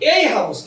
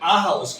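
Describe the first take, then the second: First: The article is said as a full 'ay'. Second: The article is said as a short 'uh'. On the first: The speaker calls it wrong. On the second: The speaker calls it right.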